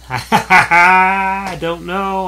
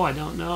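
First: Laughing I don't know, stretched out slowly; giggling, slowly stretched I don't know. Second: Said in the usual way. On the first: Real, not acted. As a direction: laugh through the words and drag them out. Unsure of movie title, laughs.

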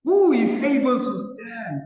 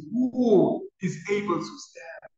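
First: Higher, louder desperate cry. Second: Slow, pleading cry, a little raised. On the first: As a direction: cry it out in anguish to heaven. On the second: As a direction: ask it slowly, pleading. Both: Retold or imitated. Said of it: "they cry out and says".

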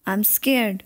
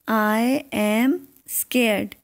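First: Said in the usual way. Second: Very slow, each word drawn out; slow model sentence. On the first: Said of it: "teacher repeats the English sentence". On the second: Shown as a demonstration. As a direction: spell it out slowly for learners. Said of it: "teacher models the English sentence". (बहुत धीरे, हर शब्द खींचकर)

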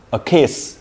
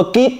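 First: "kiss" ending on a crisp hissed s; clear final s. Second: Put-on "kid" said with a hard final d and no s sound; teacher imitating the student's error, "A kid" with no final s; dropped final s. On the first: Teacher modelling the correct take for the student, final s crisp. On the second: Teacher contrasting the wrong take for the student, ending "kid" on a d. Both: Shown as a demonstration. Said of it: "Nó khác nhau ở đâu?".

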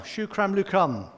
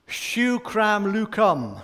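First: Said in the usual way. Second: Shukram lukum said slowly, stressing shukram; careful Arabic shukram lukum, slow. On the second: Shown as a demonstration. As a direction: spell out shukram lukum syllable by syllable. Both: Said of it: "That's how I would say it".

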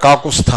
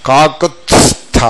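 First: కాకుస్థ with no t before the s; wrong, t dropped. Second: కాకుత్స్థ slow, t then s then th; drawn-out కాకుత్స్థ with every consonant separate; correct t-s-th. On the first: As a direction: say కాకుస్థ as kaa-ku-stha. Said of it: "కాకుస్థ కాదు". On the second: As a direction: articulate కాకుత్స్థ as kaa-kut-s-tha. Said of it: "ఇప్పుడు నేను పలుకుతా చూడండి". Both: Shown as a demonstration.

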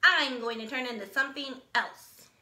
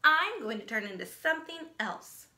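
First: Proudly. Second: Braggy. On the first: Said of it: "he said proudly to the frog". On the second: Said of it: "She's such a braggy brown". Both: Acted.

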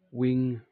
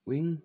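First: Said in the usual way. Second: "wing" as a higher, puzzled question; questioning repeat. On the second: Real, not acted. Catching their own mistake while naming the day's meal, puzzled question. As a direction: query your own word "wing".

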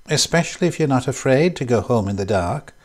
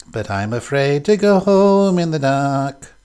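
First: Said in the usual way. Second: Slow sung line, a bit louder; sung, teasing little song to the room. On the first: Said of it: "said Laura Sharp". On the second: A narrator's reading. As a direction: sing it as the tune runs in her head. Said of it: "sang Laura Sharp".

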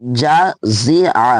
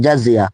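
First: জাজিআ drawn out very slowly, no ya glide; very slow model reading of জাজিআ with the ending kept plain; correct reading. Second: জাজিয়া said with a ya glide at the end; জাজিয়া as many wrongly say it, with the added ইয়া; common wrong reading. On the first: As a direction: show জাজিআ carefully, ending on a clean আ. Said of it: "কিন্তু double জা নেই আর double জিম নেই". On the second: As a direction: read জাজিয়া the mistaken way, ending in -iya. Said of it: "অনেক, অনেক পড়ি জাজিয়া পড়ি". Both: Shown as a demonstration.

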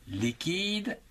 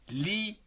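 First: Said in the usual way. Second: "Liquide" broken into three separate beats, li, qui, de; syllable by syllable. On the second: Shown as a demonstration. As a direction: pause after each syllable of "Liquide", sounding the final de. (« Liquide » découpé en trois syllabes : li, qui, de) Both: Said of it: "En trois syllabes".

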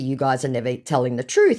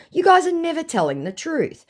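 First: Said in the usual way. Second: High-pitched exasperated rebuke; acted-out indignant accusation; scolding. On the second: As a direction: scold the scammer. Own rebuke to scammer, acted.

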